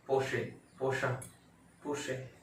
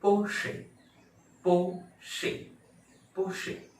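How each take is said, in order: First: पोशे, पोशा offhand, ending varying "shay", "shaa"; wrong Porsche pronunciations. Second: पोशे high, as two beats "PO-shi"; correct Porsche pronunciation. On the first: Teacher lists what many people say, wrong pronunciations. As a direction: toss out पोशे and पोशा casually. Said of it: "तो सब गलत है". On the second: Teacher models the real word, careful pronunciation. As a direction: say पोशे with a long "po", then a distinct second syllable. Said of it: "इसका असली शब्द". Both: Shown as a demonstration.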